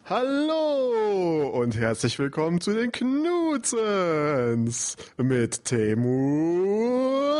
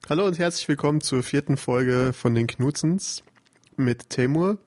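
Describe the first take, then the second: First: The greeting is said in an enthusiastic manner. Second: The greeting is said in a plain manner.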